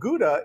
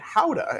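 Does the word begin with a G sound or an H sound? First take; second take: G sound; H sound. First: The word begins with a hard G sound. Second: The word begins with a breathy H sound. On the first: The speaker calls it wrong. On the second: The speaker calls it right.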